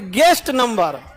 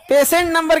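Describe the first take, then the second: First: guest number slow and falling, landed firmly; slow, deliberate emphasis on guest number; corrected term. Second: PATIENT NUMBER pitched high, as the wrong term; raised pitch on patient number; rejected term. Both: Shown as a demonstration. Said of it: "case number नहीं".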